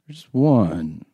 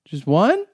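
First: The voice goes down at the end. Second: The voice goes up at the end. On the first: The speaker calls it right. "That was good. That was your best take" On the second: The speaker calls it wrong. "You don't have to go up at the end"

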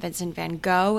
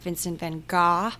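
First: The name is said the common American way. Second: The name is said a different, non-American way. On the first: "I've just always called him Vincent Van Gogh... one of those classic Americans" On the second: "whatever you're supposed to say"

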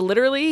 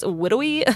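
First: The word is said with clear L sounds. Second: The L sounds are replaced by W sounds. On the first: "when it comes to literally" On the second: "he's trying really hard to do the L sound everywhere else except for in that word"

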